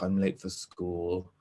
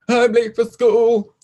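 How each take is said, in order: First: It is muttered quietly under the breath. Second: It is said loudly, like a shout. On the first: "if I had muttered I'm late for school" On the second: "rather than"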